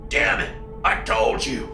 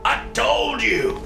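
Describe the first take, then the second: First: Half-voiced, raw father's plea; raw with emotion. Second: Slow, high, breaking repeat; raw, dragged out. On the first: A father pleads with his son, voice raw. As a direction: choke it out, barely voiced. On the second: Acted. A father repeats himself to his son, breaking. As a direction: stretch it out as the voice cracks. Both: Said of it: "voice raw with emotion".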